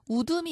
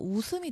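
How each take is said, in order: First: The middle consonant is a d sound. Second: The middle consonant is an s sound. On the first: The speaker calls it wrong. "아니라" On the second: The speaker calls it right. "되죠"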